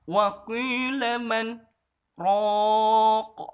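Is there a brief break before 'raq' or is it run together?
break. A brief break comes before the last word. The speaker calls it right.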